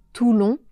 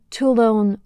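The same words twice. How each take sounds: First: Said in the usual way. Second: First Toulon said in English accent, "too-lon" with a full n, no nasal. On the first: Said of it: "au lieu de Toulon". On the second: Shown as a demonstration. Teacher contrasting the film actors' Toulon, English accent. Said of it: "avec un accent anglais".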